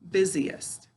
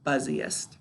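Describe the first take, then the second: First: The first syllable is said like 'biz'. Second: The first syllable is said like 'buzz'. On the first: It is the everyday spoken pronunciation. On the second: It is a spelling pronunciation that matches the letters.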